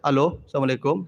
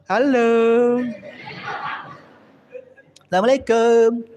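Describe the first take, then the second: First: The voice is plain, neutral and businesslike. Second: The voice is soft, sweet and coquettish. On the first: The speaker keeps a proper, modest distance. The speaker calls it right. "telepon standar bicara ibu" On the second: The speaker is being flirtatious with a man. The speaker calls it wrong. "Tak boleh ibu bicara begitu"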